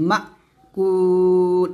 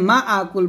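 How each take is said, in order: First: 'Ma' is pushed straight into 'kul' with no extra vowel. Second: An extra 'a' vowel comes before 'kul'. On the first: The speaker calls it right. "বলবেন মা কুল, এরকম মাতে ধাক্কা দিয়ে বলবেন" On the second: The speaker calls it wrong. "এখানে মা আকুল বলবেন না"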